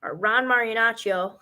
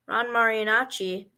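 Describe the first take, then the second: First: Marinaccio said as mah-ree-NAH-chee-oh, with a clear final -oh; corrected pronunciation. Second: Marinacci said as mah-ree-NAH-chee, ending on -chee with no final o; tentative mispronunciation. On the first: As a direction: land the full Italian ending of Marinaccio, chee-oh. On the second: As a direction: clip the name short as Marinacci, stopping at the -i. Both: Real, not acted. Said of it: "hard to pronounce Italian last names".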